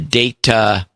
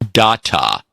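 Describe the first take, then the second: First: The word uses the Star Trek pronunciation. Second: The word uses a different, non-Star Trek pronunciation. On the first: The speaker calls it right. "The data pronunciation like on Star Trek" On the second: The speaker calls it wrong. "not data, please"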